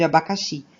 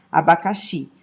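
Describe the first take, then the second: First: Said in the usual way. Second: Abacaxi said as a demo, last syllable XI strongest; stress on XI. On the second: Shown as a demonstration. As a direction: land firmly on the final XI of abacaxi. (abacaxi com a última sílaba XI mais forte) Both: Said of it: "o xi é o mais forte".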